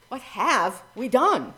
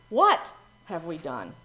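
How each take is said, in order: First: Done drawn out and slower; stress on done. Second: What lifted and leaned on; stress on What. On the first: Minister showing the congregation emphasis on done. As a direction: lean on the final done. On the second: Minister showing the congregation emphasis on What. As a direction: open by hitting What. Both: Shown as a demonstration. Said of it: "Try putting the emphasis on different words".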